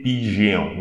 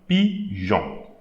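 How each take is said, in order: First: The G is said as a hard G. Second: The G is said as a soft J. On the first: The speaker calls it wrong. "don't say pigeon, no" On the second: The speaker calls it right. "this G E will be pronounced, will create the sound J"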